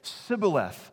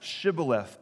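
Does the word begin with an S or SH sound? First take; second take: S; SH. First: The word begins with an s sound. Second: The word begins with an sh sound. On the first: The speaker belongs to the enemy group. The speaker calls it wrong. "they couldn't make the SH sound, and they would just say Sibboleth" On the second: The speaker belongs to the friendly group. The speaker calls it right. "have them say the word Shibboleth"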